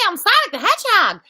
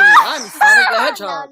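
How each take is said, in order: First: The voice is lighter and higher. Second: The voice is darker and deeper.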